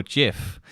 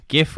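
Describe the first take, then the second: First: "gif" said like "jif"; soft-G gif. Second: "gif" said with a hard G, as in graphic. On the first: Podcaster offering the other pronunciation, soft-G "gif". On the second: Podcaster posing the pronunciation debate, hard-G "gif". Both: Shown as a demonstration. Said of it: "if you pronounce it gif or gif".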